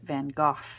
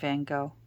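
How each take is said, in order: First: The name is said the British way. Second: The name is said the North American way. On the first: "the British people ... they pronounce it" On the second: "Us over here in North America, we call him"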